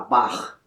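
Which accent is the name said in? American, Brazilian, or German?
German. The name is said with a German pronunciation. "se você falar em alemão, eles vão falar Bach"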